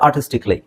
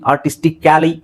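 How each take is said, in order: First: The -cally ending is reduced to a short 'kli'. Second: The -cally ending is said as a full syllable. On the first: The speaker calls it right. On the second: The speaker calls it wrong. "ಅಂತ ಹೇಳೋ ಅವಶ್ಯಕತೆ ಇಲ್ಲ"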